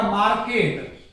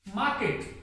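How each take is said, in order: First: मार्केट with the r pronounced; wrong pronunciation. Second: Soft मार्केट with silent r; correct pronunciation. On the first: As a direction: say मार्केट as "maarket". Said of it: "ऐसे नहीं लिखा मिलेगा". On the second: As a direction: say मार्केट quietly as "maaket". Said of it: "ऐसे नहीं लिखा मिलेगा मार्केट". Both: Shown as a demonstration.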